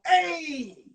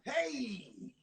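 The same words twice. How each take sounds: First: Said in the usual way. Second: Inner cool hey. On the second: Retold or imitated. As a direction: say "Hey" softly to yourself, playing it cool. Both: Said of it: "in my mind".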